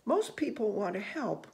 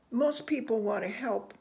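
No difference in how they are said.

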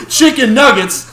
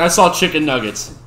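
First: High, loud delighted shout; excited shout. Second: Said in the usual way. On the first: Real, not acted. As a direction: blurt it out, thrilled at the sight. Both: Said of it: "sorry, I got distracted".

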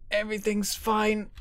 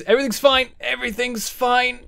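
First: Softer, still raised in pitch; cling to hope under your breath; high but softened, uneasy denial; faltering self-reassurance. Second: High-pitched, rising alarm; high, strained denial mid-crisis; panicked self-reassurance. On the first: Same words as craft keeps failing. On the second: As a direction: insist all is well while it falls apart. Craft failing, he insists otherwise. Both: Real, not acted.

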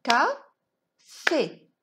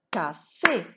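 First: "Café" clapped out as two loud, separate beats; syllable by syllable. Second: "Café" in two close beats, lower start; "Ca-fé" closer together, second syllable rising; syllables joined up. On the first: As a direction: beat out "Ca", pause, "fé", firmly. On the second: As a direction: say "Café" again with only a short break between syllables. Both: Shown as a demonstration. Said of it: "On va frapper les syllabes".

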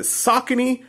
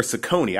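First: "Saucony" said SAH-kuh-nee; "Saucony" with an open SAH and short unstressed "kuh"; first-syllable stress. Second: "Saucony" said suh-CONE-ee; "Saucony" with a short "suh" and long stressed O; middle-syllable stress. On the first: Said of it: "I hear two pronunciations with this". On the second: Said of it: "I used to always say Saucony". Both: Shown as a demonstration.

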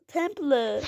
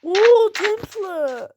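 First: Said in the usual way. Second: Loud, higher, very slow amazement; amazed drawn-out oo. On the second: Real, not acted. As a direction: stretch it out in wonder. Spots a temple. (tapınağı görünce hayranlıkla uzatarak)

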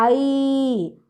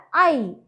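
First: ஐ held long; a drawn-out, lengthened ஐ; long vowel. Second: ஐ said short and quick; a brief, unlengthened ஐ; too-short vowel. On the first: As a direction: glide slowly through ஐ. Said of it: "அதனால நீண்டு உச்சரிக்கணும்". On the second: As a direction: cut ஐ off early. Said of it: "அப்படி சொல்லக்கூடாது". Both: Shown as a demonstration.

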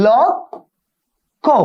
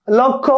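First: লক্ষ্য stretched out very slowly as lokkho; drawn-out pronunciation. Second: Said in the usual way. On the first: Shown as a demonstration. Teacher to students, drawing out লক্ষ্য very slowly. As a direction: draw out লক্ষ্য syllable by syllable for the class. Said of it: "কি ব-, বলো?". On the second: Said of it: "আমি কি বললাম?".

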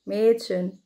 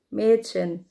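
No difference in how they are said.

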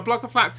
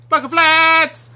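First: Said in the usual way. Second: Loud, high, drawn-out shout; stretched gleeful yell; mock battle cry. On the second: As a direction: holler BLOCK OF FLATS slowly as a charge.

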